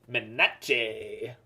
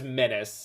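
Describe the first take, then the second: First: The word ends with an 'sh' sound. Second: The word ends with a plain 's' sound. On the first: The speaker calls it wrong. "I just frequently mispronounce it as Menache because I think it's funny" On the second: The speaker calls it right. "the word is menace"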